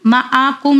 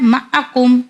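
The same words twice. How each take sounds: First: "मा आ कुम" with the middle आ stretched long; wrongly lengthened vowel. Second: "मा आ कुम" with a short, quick middle आ; corrected short vowel. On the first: Teacher showing what not to read, "मा आ कुम" with long middle vowel. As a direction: drag the आ in "मा आ कुम". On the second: Teacher giving the correct reading, "मा आ कुम" with short middle vowel. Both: Shown as a demonstration. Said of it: "नहीं पढ़ना है".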